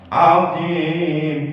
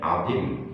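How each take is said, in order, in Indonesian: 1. Vokal panjang dibaca empat harakat. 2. Vokal hanya dibaca satu harakat. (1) "azim empat harakat" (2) "kalau dibaca pendek, azim gitu"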